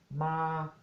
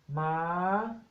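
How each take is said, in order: First: It is said on a level mid tone. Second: It is said on a high tone. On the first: It means to come. "el tono neutro, medio" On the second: It means horse. "Tono alto"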